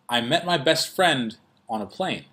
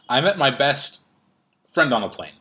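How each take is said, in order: First: There is a pause just before 'on a plane'. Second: A pause falls elsewhere, splitting a phrase. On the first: The speaker calls it right. "the pause comes before the prepositional phrase" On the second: The speaker calls it wrong. "you would not say"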